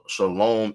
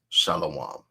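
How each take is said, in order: First: It uses the modern Israeli Hebrew pronunciation. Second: It uses a different, non-modern Hebrew pronunciation. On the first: "is how the word that means peace in Hebrew is vocalized in the modern vocalization" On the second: "how we pronounce it as shalom"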